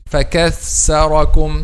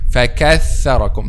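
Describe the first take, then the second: First: The middle consonant blends s and th sounds. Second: The middle consonant is a clear th sound. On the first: The speaker calls it wrong. "or a mixing like this" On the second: The speaker calls it right. "the correct pronunciation of this word"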